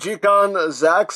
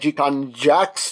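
First: The last word begins with a Z sound. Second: The last word begins with a J sound. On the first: The speaker calls it right. "if they say Zax, I'm going to say Zax" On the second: The speaker calls it wrong. "I originally thought it was going to be like G-Con Jax"

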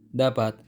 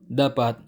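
The two takes are said the same way.

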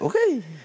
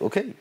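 First: The word is said with a stylized, flavored delivery. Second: The word is said plainly, in an everyday way. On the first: It is the version put into the song. "I just give it a little flavor" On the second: It is the everyday greeting used on the block. "anything a man would just say"

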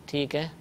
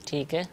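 Both takes have the same delivery.

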